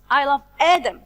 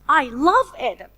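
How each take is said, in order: First: The stress falls on the word Adam. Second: The stress falls on the word love. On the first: It is this person, not anyone else. "When I stress like this, ... So it's Adam, not anyone else in the world" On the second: The feeling is love, not some other action. "I stress the word love"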